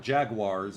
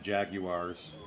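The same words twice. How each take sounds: First: It is said with an American pronunciation. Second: It is said with a non-American pronunciation.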